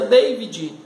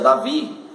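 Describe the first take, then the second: First: The name is said the American English way. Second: The name is said the Brazilian Portuguese way. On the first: This is the foreign form of the name. "lá nos Estados Unidos se pronuncia David" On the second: This is the local form of the name. "Aqui no Brasil se pronuncia Davi"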